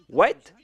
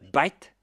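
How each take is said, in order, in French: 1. Le mot commence par un son W. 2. Le mot commence par un son B.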